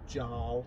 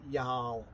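First: The word is pronounced the English way. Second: The word is pronounced the Norwegian way. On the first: The speaker calls it wrong. "rather than Jarl" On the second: The speaker calls it right. "it's Norwegian for Earl, which is why you say Jarl"

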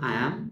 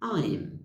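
First: It is said as two separate full words. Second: It is said as one contracted word. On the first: "তাহলে আমার সাথে বলেন" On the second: "আই অ্যামকে কী বলবো"

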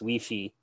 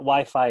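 First: It is said with a French pronunciation. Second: It is said with an English pronunciation. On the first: The speaker calls it right. "there's a French pronunciation for it" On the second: The speaker calls it wrong. "it's not Wi-Fi"

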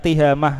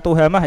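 First: The first vowel is an 'i' sound. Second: The first vowel is an 'u' sound. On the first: The speaker calls it right. "tihamah, salah lagi itu" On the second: The speaker calls it wrong. "bukan tuhamah ya"

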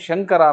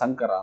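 First: The word begins with a sh sound. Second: The word begins with an s sound. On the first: The speaker calls it right. "ಶಂಕರ ಅನ್ನೋದನ್ನು" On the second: The speaker calls it wrong. "ಸಂಕರ ಅಂತಾನೆ"

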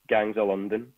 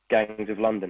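First: It is spoken in a Scottish accent. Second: It is spoken in a London accent. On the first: "the Scottish way would be" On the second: "the London way would be"

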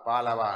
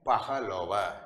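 First: The word is said in a shortened spoken form. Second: The word is said in its full form. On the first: This is the everyday spoken form. The speaker calls it wrong. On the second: This is the form used in writing. The speaker calls it right.

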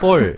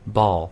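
First: The vowel is a close, Korean-style o sound. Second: The vowel is an open, English aw sound. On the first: The speaker calls it wrong. "그냥 우리가 대충 해버리면 볼" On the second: The speaker calls it right. "볼이 아니라 ball"

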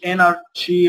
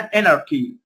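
First: The consonant after anar is an sh sound. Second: The consonant after anar is a k sound. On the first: The speaker calls it wrong. "ما اقولش انارشي ولا شي" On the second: The speaker calls it right. "يبقى هنا اناركي"

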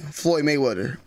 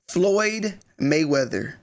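First: The name ends sounding like 'wetter'. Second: The name ends sounding like 'weather'. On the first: The speaker calls it wrong. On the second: The speaker calls it right.

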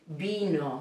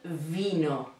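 First: It begins with a soft b sound. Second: It begins with an English-style v sound. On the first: The speaker calls it right. "So it's B" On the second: The speaker calls it wrong. "not vino"

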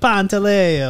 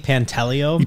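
First: It is said with an Italian pronunciation. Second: It is said with a general American pronunciation. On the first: "I went to Italy and they're like" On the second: "It's a little more American"

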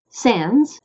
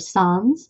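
First: It is said with an American Midwestern pronunciation. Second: It is said with a French pronunciation.

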